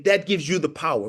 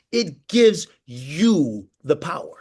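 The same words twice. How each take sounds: First: Said in the usual way. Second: "gives" lifted, every word slowed for note-taking; slow emphatic line. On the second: Shown as a demonstration. Land "It gives you the power" slowly, leaning on "gives". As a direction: coach repeating the key line for the team, slow and stressed. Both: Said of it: "Please write that down as a note".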